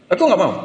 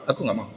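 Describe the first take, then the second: First: Put-on child insisting to friends he won't pray; firm refusal. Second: Softer, sulky little no; quiet, stubborn child refusing to pray for papa; quiet refusal. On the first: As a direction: dig in and refuse. Child repeats refusal firmly. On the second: Retold or imitated. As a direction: mutter the refusal.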